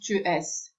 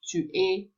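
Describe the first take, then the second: First: The final s is sounded. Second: The final s is silent. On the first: The speaker calls it wrong. "not tu es" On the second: The speaker calls it right. "final letters are never pronounced"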